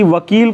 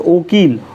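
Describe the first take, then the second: First: The word begins with a 'v' sound. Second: The word begins with an 'o' sound. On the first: This is the standard form. "शब्द के शुरू में बा ओ ऊ बन जाता है" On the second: This is the regional dialect form. "खोटा में"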